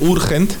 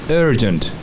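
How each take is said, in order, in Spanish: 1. La primera vocal es un sonido oo redondeado. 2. La primera vocal es un sonido uh neutro y corto. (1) "Urgente no va a ser urgent" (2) "Hay que cambiar la pronunciación de la U y se va a hacer en una A pequeña"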